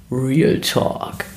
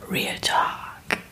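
First: Said in the usual way. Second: Dramatic whisper of Real Talk. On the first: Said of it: "eine Rubrik, die sich nennt". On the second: Pretend. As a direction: breathe the title like a secret. Repeats segment name in a whisper. (geheimnisvoll geflüstert)

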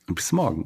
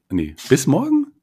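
First: Said in the usual way. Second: Rising, puzzled double-take; puzzled question. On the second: Real, not acted. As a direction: ask it back in disbelief.

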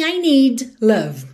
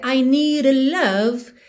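First: "need love" with a clear D, no tap; full D. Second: "need" flapped into "nee-ra love"; tapped D. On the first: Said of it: "pensando em I need love". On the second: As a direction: tap the D of "need" like a light R. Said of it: "faz o rarará mesmo sem a ligação". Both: Shown as a demonstration.

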